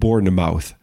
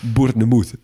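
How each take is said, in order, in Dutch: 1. Het uiteinde is een volledige 'mouth'. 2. Het woord heeft een Frans-achtige uitspraak. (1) "niet Bournemouth" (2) "Of zoals een Frans collega van mij ooit zei"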